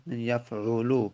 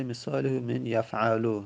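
First: یفعلو read as yaf'ulu, with a damma on the ayn; corrected reading. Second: یفعلو read as yaf'alu, with a fatha on the ayn; wrong reading. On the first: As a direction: give the fixed form یفعلو with a u in the middle. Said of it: "اینجا تصحیحش بکنید". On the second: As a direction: read out the typo یفعلو with an a in the middle. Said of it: "تایپ اشتباه شده". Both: Shown as a demonstration.

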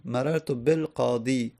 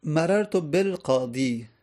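First: Said in the usual way. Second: Slow, carefully spaced Arabic phrase مررت بالقاضی; slow example reading. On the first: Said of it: "با حرف جر". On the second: Shown as a demonstration. Teacher reading the example sentence to students, slowly.

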